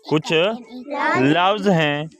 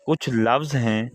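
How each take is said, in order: First: Put-on slow, drawn-out repeat for children; slow teacher's repeat of कुछ लफ्ज़ हैं. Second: Said in the usual way. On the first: Shown as a demonstration. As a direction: stretch each word out slowly so kids follow.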